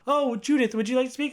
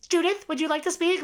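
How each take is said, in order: First: Higher, sweet coaxing nurse voice, lightly imitated; lightly imitated caretaker asking Judith to speak; sugary nurse prompt. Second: High squawky parrot parroting the line back; girl who thinks she's a parrot echoing the nurse; parrot mimicry. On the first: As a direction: coax Judith like a patient talker. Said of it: "And she goes". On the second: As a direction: repeat it like a parrot would. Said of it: "she thinks she's a parrot".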